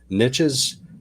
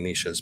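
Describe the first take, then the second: First: The word is pronounced the local English way. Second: The word is pronounced the French way. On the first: The speaker calls it right. "but niches" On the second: The speaker calls it wrong. "I keep saying niches because niche is the French way to pronounce it"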